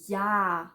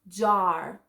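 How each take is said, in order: First: The word begins with a Y sound. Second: The word begins with an English J sound. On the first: The speaker calls it right. "but ja" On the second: The speaker calls it wrong. "Not jar"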